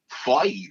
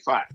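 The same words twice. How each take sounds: First: It is said imitating a Californian accent. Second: It is said in a non-Californian accent. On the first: "But in California, they say five" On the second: "when I say the word five, I say five"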